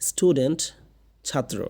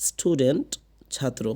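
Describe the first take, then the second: Both takes have the same delivery.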